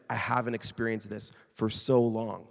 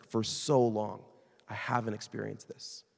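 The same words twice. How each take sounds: First: Said in the usual way. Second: For so long drawn out slowly, weight on so; slow, leaning on so long; stress on so long. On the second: Retold or imitated. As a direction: linger on For so long before the rest. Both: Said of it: "that was the emphasis".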